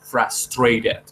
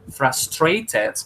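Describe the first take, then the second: First: The middle consonant is a quick r-like flap. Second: The middle consonant is a clear t sound. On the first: "podemos hacerla con R, rareriroru" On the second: "Frustrated con T is good in terms of pronunciation"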